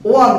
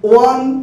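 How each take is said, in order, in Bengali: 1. স্বরধ্বনিটি 'wun' এর মতো শোনায়, 'one' শব্দের মতো। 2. স্বরধ্বনিটি 'wun' এর মতো শোনায়, 'one' শব্দের মতো।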